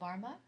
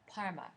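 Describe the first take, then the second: First: The word begins with a voiced b sound. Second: The word begins with a voiceless p sound. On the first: The speaker calls it wrong. "my bad pronouncing" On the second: The speaker calls it right. "it's pronounced more like a"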